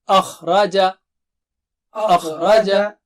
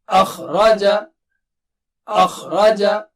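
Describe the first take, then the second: No difference in how they are said.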